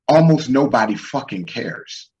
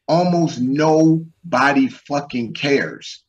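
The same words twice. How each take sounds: First: Said in the usual way. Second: "Almost nobody fucking cares" drawn out slowly, each word weighted; slow emphatic repeat. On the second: Real, not acted. Driving his point home to the guys, slow and emphatic. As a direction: repeat it slowly and hammer the words.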